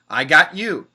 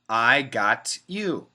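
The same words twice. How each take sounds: First: The phrase is said at a faster pace. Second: The phrase is said at a slower, careful pace. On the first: "A little bit faster" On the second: "perfect pronunciation"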